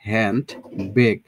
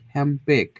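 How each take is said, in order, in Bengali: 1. প্রথম শব্দটি একটি স্পষ্ট n ধ্বনি দিয়ে শেষ হয়। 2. n ধ্বনিটি দ্রুত বললে m ধ্বনিতে পরিণত হয়। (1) "দেখেন হ্যান্ড বেক" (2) "খুব ফাস্ট বলতে চাই, সেক্ষেত্রে আমরা কি এটা সহজ করে বলতে পারি"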